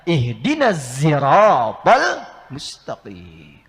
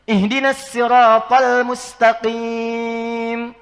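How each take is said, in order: First: The word sirat begins with a z sound. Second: The word sirat begins with a plain s. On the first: "Maka turunlah riwayat nanti menggunakan zai" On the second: "Riwayat kolon sin"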